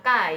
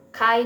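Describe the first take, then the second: First: "K" said as ka, without aspiration; "K" as a dry ka, no h; wrong reading. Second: "K" said as k-ha, with an h after k; "K" as an aspirated kha; correct Mandarin reading. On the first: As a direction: say "K" like the Indonesian letter ka. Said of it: "bukan K". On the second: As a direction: puff air into "K", like kha. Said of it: "karena ada H di tengahnya". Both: Shown as a demonstration.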